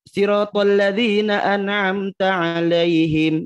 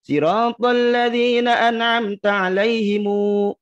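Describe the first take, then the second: First: The last word ends on a bare m sound. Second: The last word ends with an added u vowel. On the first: The reader stops and takes a breath here. The speaker calls it right. "Kalau mau berhenti jangan Ghairil mag apa? ... Begitu" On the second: The reading runs on into the next words. The speaker calls it wrong. "Bukan begini. ... Tidak begitu"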